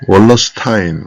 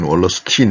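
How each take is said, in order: First: The name ends with a 'stine' sound. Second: The name ends with a 'steen' sound. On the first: "월러스타인이라고 얘기하는 사람도 있고" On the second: "월러스틴이라고 얘기하는 사람도 있는데"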